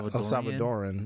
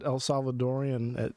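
First: No extra 'ee' sound comes before the ending. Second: An extra 'ee' sound comes before the ending. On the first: The speaker calls it right. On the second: The speaker calls it wrong.

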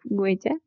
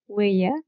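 First: The consonant between the vowels is fully pronounced. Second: The consonant between the vowels is weakened or dropped. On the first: "instead of" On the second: "The tendency to weaken or lose the J between vowels"

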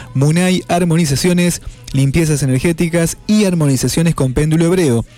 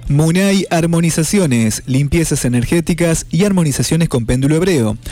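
The two takes are said the same way.

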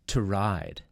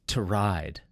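First: The vowel in 'to' is reduced and weak. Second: The vowel in 'to' is reduced and weak.

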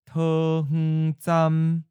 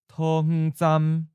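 First: It is said slowly and deliberately. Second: It is said at a natural, normal speed. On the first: "and then slowly" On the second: "First natural speed"

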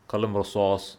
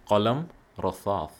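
First: The second word is said with a clear s sound. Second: The second word is said with a lisped th sound. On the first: The speaker calls it right. "It's the swad. So it would be Qalam Rasas" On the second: The speaker calls it wrong. "bit of a lisp"

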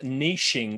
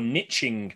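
First: It is said the non-North American way. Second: It is said the North American way.

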